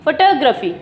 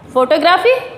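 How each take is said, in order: First: The stress is on the second syllable. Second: The stress is not on the second syllable. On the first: The speaker calls it right. "टा पे हमको यहाँ पर stress देना है" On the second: The speaker calls it wrong. "ये photography नहीं बोला जाता है"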